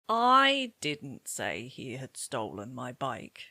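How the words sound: The word I carries strong stress. "I can hear that you've stressed I"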